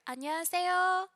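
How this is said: It is spoken high in the head voice. The speaker sounds self-conscious, as at eighteen. "I talk up here. I use my head voice rather than my chest voice"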